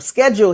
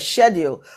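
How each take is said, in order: First: The word is said the American way. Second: The word is said the Caribbean way. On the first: "schedule here" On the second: "we say schedule"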